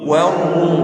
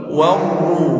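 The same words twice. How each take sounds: No difference in how they are said.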